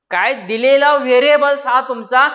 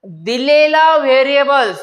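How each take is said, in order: First: Said in the usual way. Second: "दिलेला variables" said slowly and deliberately; slow emphasis. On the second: Shown as a demonstration. Teacher stressing a rule to students, slow and deliberate. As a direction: lean on "दिलेला" and stretch it out. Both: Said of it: "एक लक्षात घ्या".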